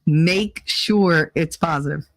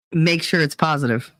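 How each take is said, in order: First: Slow, with the word sure stressed; mocking instruction. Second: Said in the usual way. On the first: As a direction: drag it out mockingly, leaning on sure. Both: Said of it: "I was told that".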